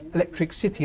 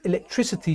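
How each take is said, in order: First: It is split into electric plus city. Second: It is said as one smooth word. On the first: "she always said electric city" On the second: "instead of saying electricity"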